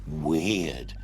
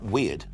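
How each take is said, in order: First: The word is said with heavy, drawn-out emphasis. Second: The word is said plainly, without extra emphasis. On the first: It was extremely unusual. "they're really emphasizing the unusualness of this" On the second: It was only a little odd. "Not weird"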